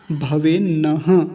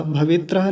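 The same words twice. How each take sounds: First: भवेन्नः slowly, with a doubled न; correct भवेन्नः. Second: भवेत्रः read as it looks in writing, with त्र; wrong भवेत्रः. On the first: Teacher modelling भवेन्नः with its double न. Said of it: "ये दो न बने हुए हैं". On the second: Teacher showing the misreading भवेत्रः before correcting it. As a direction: read भवेत्रः literally, as a mistake. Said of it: "भवेत्रः नहीं है". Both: Shown as a demonstration.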